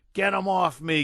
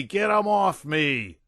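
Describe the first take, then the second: First: High, loud panicked scream. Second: High, loud, slower desperate scream; screaming again. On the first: General tearing his clothes off, screaming. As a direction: scream like he's being swarmed. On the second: General still screaming at the invisible ghosts. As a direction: drag the plea out in panic. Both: A narrator's reading.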